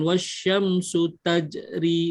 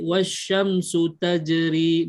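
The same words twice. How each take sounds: First: Tajri is broken by a stop after taj. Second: Tajri is said smoothly without stopping. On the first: The speaker calls it wrong. "bukan wasyamsu tajri, jangan berhenti" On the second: The speaker calls it right. "Jadi wasyamsu tajri"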